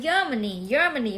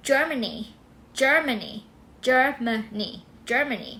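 First: Germany starting with a Y, as YER-ma-nee; mispronounced with Y. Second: Germany starting with a J sound; correct J sound. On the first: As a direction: say "Germany" wrongly with a Thai-style Y onset. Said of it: "อย่าอ่านว่า". (ออกเสียง Germany ผิดเป็น เยอ-มะ-นี) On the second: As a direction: say "Germany" as JER-muh-nee, carefully modelled. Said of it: "อย่าอ่านว่า Germany". (ออกเสียง Germany ขึ้นต้นด้วยเสียง จ เป็น เจอร์-เมอะ-นี) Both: Shown as a demonstration.

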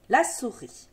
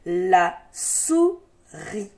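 First: Said in the usual way. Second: "La souris" very slow, split la - sou - ris; syllable by syllable. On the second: Shown as a demonstration. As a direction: sound out "La souris" with a gap between syllables. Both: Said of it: "des syllabes qui se donnent la main".

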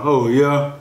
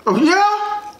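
First: Said in the usual way. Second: Very high squeaky mock interest; high falsetto surprise; impressed caller. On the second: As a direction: play an amazed friend on the phone, pitched way up. Voices an impressed phone caller.

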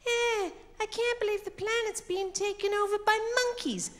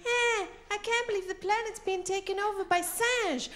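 First: High-pitched mock-dramatic film hero. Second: High-pitched dubbed film hero, French word dropped in. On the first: Impersonates film hero [name]. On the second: Retold or imitated. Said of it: "it looks like this". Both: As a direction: strain it high in mock disbelief.

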